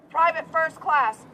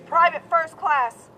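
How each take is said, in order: Both takes have the same delivery.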